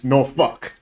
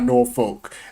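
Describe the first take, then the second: First: It sounds like naw-fuck, with r and l dropped. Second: The r and l are pronounced as written. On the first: The speaker is a local. The speaker calls it right. "No, it's Norfolk" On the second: The speaker is from out of town. The speaker calls it wrong. "it's not Norfolk. And I don't care if it's spelled N O R F O L K"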